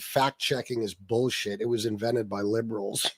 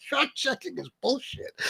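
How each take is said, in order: First: Mocking a customer. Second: Higher, laughing repeat rising at the end; laughing disbelief. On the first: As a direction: drag it out like a dim grumble. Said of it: "a guy came in the other day and said". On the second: Real, not acted. Repeating a customer's claim to viewers, laughing in disbelief.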